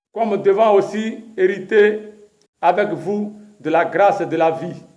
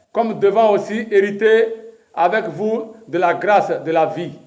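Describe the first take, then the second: The two takes are said the same way.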